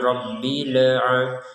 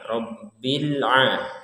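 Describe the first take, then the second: First: The vowel after Rabbil is drawn out. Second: The vowel after Rabbil is short and clean. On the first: The speaker calls it wrong. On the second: The speaker calls it right.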